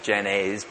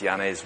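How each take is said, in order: First: The name is said with an English-style pronunciation. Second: The name is said with a Dutch pronunciation. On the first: The speaker calls it wrong. "If you're not a Dutch person, you'll probably pronounce that as Janez" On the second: The speaker calls it right. "but it's Janez"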